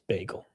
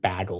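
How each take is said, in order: First: It is said the speaker's usual, non-Canadian way. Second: It is said the Canadian way, like Tanner.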